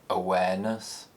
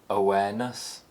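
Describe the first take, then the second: The two takes are said the same way.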